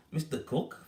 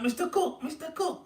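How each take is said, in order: First: Mildly puzzled repeat, a little higher; puzzled echo. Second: High-pitched imitation of kids calling. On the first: Retold or imitated. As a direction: echo the name as if wondering who it is. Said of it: "Thinking, "Who's this?". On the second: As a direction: call a teacher's name like excited lads, pitched way up. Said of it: "they're going like".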